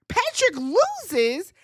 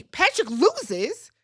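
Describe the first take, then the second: First: Stunned slower. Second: Stunned slow. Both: Real, not acted. Repeats the result.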